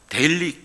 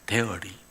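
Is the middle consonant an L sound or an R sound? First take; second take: L; R. First: The middle consonant is an L sound. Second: The middle consonant is an R sound. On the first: It sounds like the word for every day. The speaker calls it wrong. "데일리라고 발음하면 안 되고" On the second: It means made from milk. The speaker calls it right. "L이 아니고 R로 발음하는 거예요"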